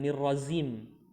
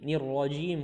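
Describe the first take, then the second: First: The last word has a z sound. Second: The last word has a j sound. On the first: The speaker calls it wrong. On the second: The speaker calls it right. "huruf jim ya"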